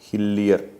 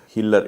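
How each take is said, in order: First: The name is said with the middle 'ee' sound. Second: The name is said without the middle 'ee' sound. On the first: The speaker calls it right. "H I L L I E R" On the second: The speaker calls it wrong. "it is not Hiller"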